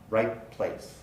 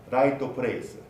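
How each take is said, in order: First: The T blends into the following p sound. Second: The T is released with an added vowel. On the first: The speaker calls it right. "The T disappears and becomes part of the following segment" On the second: The speaker calls it wrong. "might have a tendency to say something like raito presu"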